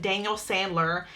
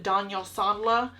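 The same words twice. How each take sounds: First: It is said in the speaker's plain accent. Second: It is said in a put-on British accent.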